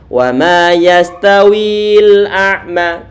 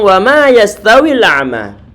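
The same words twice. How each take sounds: First: The vowel before the l is held long. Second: The vowel is short and runs straight on. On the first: The speaker calls it wrong. "jangan dibaca" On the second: The speaker calls it right. "tapi langsung"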